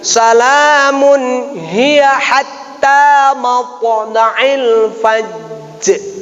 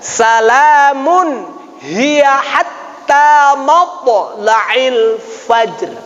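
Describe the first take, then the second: First: The final r of fajr has a bounce. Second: The final r of fajr is soft, no bounce. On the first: The speaker calls it wrong. "Jadi bukan dibaca misalnya gini" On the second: The speaker calls it right. "Jadi tidak ada qalqalah"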